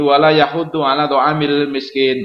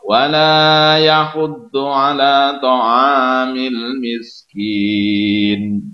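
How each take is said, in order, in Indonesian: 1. Dibaca dengan cepat dan terburu-buru. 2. Dibaca dengan pelan dan jelas. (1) "nggak boleh tergesa-gesa bacanya, misalnya begini" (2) "harus dibaca dengan tartil, dengan jelas"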